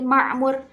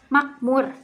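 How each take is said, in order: First: The middle consonant is a throaty ain sound. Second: The middle consonant is a k sound.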